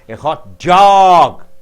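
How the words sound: The stress falls on the word dog. "Dog is stressed"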